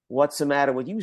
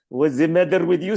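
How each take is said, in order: First: It is said in a plain native accent. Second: It is said with a heavy foreign accent. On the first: "when she had to say" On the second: "She, ... Something of that nature"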